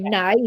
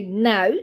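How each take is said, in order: First: Now in a Northern Irish accent, close to nigh. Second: Said in the usual way. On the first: Shown as a demonstration. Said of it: "which is the northern accent". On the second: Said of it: "normally I would say".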